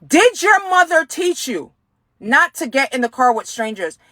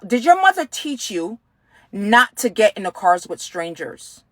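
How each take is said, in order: First: Sharp, higher angry repeat of the question; retold angry question. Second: Said in the usual way. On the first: Stranger in the car repeating his question, now angry. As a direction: snap it back at her like he's lost patience. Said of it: "And he got mad". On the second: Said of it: "Did your mother ever tell".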